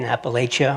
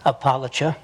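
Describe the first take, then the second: First: It is said in the speaker's own outsider pronunciation. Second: It is said the way eastern Kentucky locals say it.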